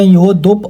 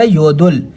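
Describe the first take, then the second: First: The word ends in a p sound. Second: The word ends in an l sound. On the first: The speaker calls it wrong. "योदलुप या योदुप आवाज़ नहीं देगा" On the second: The speaker calls it right. "आवाज़ देगा योदुल"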